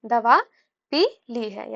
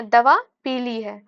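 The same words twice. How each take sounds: First: दवा, पी ली है with पी and ली apart; pause inserted. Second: दवा पीली है with पीली joined; पीली as one word. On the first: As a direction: pause after दवा and separate पी from ली. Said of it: "यहाँ पे हम लोग विराम लगा दिए हैं". (दवा पी ली है, विराम देकर) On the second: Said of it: "यानी कि दवा का कलर". (दवा पीली है, पीली को मिलाकर) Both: Shown as a demonstration.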